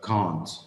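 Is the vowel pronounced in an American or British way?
British. The vowel is long and open, British style. "but can't"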